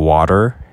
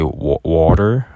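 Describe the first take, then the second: First: The word is said in a standard accent. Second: The word is said in a New York accent. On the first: "instead of saying water" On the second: "he'll say water"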